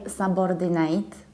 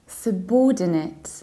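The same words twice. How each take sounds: First: The second syllable is not the stressed one. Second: The second syllable is stressed; the beginning is reduced. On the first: The speaker calls it wrong. "we don't say subordinate as I usually hear" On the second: The speaker calls it right. "you reduce the beginning, ... you stress the second syllable"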